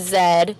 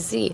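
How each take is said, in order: First: The letter is said the Canadian way. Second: The letter is said the American way. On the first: This is how it is said in Canada. "I'm from Canada, and I used to say Z" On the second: This is how it is said in America. "no one says Z here; they say Z"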